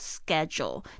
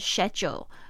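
First: The word is said in an American accent. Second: The word is said in a British accent. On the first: "在美式发音比较有可能会听到schedule" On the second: "这个schedule 其实是英式发音"

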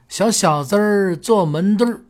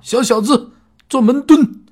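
First: The word endings have an r-coloured sound. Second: The word endings have no r-coloured sound. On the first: It sounds cute and endearing. The speaker calls it right. "听着呢就是特别可爱" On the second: It sounds stiff and loses its charm. The speaker calls it wrong. "这听着特别生硬"

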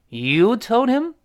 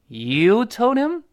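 Both takes have the same delivery.

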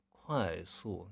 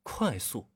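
First: It is said slowly and drawn out. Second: It is said quickly and crisply.

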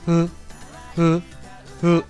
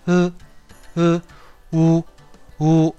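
First: The vowel is said with flat, unrounded lips. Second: The vowel is said with rounded, pushed lips. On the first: "嘴唇要保持扁平，发音位置是在口腔里面" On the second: "汉语的乌鸦的乌呢，它的发音位置则是在嘴唇上"

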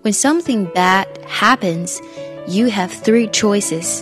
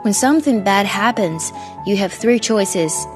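First: It is said slowly and carefully. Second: It is said at normal speed.

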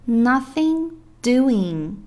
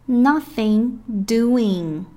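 Both takes have the same delivery.

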